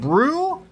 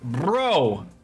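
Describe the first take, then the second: First: The vowel is a long 'oo' sound. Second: The vowel is a long 'oh' sound. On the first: "brew like the brood" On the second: "like bro like the brooch"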